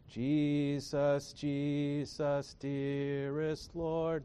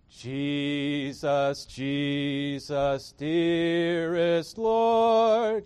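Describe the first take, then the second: First: It is said weakly, with deflated energy. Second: It is said strongly, with resounding energy.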